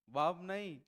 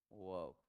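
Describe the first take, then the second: First: "वर्ब" loud and stressed, as the wrong one; wrong "वर्ब" rejected. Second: "वर्ब" short and low, said as "vəb"; clipped low "वर्ब". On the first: Teacher contrasts the wrong "वर्ब", loud. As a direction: hit "वर्ब" loudly to reject it. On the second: Teacher gives the correct short "वर्ब". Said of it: "क्या बोलना है?". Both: Shown as a demonstration.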